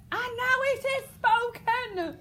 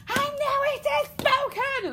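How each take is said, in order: First: Slow, very high and loud cry; freaky outburst. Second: Temper tantrum. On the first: King losing his temper at the girl, slow wild cry. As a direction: let it erupt, drawn out and wild. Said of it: "proper freaky out". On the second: King erupting at the defiant girl, tantrum shout. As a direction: throw a tantrum on every word. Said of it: "temper tantrum". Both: Shown as a demonstration.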